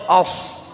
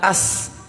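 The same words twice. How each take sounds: First: The s sound is heavy and emphatic. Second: The s sound is plain and light. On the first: The speaker calls it right. "tapi kalau shad itu as" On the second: The speaker calls it wrong. "kalau sin itu kita bilang as"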